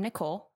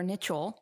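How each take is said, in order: First: Said in the usual way. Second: "Nichole" with CH as in chose; misread name. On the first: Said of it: "or Nichole". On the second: Shown as a demonstration. Guest joking about her name, CH pronunciation. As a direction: say "Nichole" as ni-CHOLE, not a K sound. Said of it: "with a C H".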